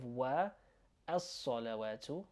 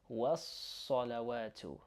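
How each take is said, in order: First: Wa, then a pause, then as-salawatu; unmerged wa, as-salawatu. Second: Was-salawatu as one word, S held; merged was-salawatu. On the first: Teacher showing what not to say, wa and as-salawatu apart. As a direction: keep wa and as-salawatu as separate words. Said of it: "Instead of". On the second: Teacher showing learners two words merged, slow was-salawatu. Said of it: "merge these two words together". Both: Shown as a demonstration.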